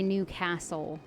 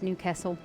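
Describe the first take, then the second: First: It is said in the speaker's usual pronunciation. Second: It is said in the local accent's pronunciation. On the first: "I would say Newcastle" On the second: "all the accents I've heard, it's Newcastle"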